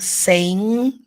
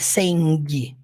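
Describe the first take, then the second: First: The word ends on an N sound. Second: The word ends with a pronounced G sound. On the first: The speaker calls it right. "Saying vai terminar no som do N" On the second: The speaker calls it wrong. "não é saying, não"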